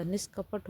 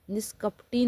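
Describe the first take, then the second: First: निष्कपट said ending on a bare t with no final vowel; correct form. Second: Flag निष्कपटी as the wrong ending; wrong form named. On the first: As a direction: give निष्कपट as the right form. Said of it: "निष्कपट होता है". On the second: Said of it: "निष्कपटी नहीं होता". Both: Shown as a demonstration.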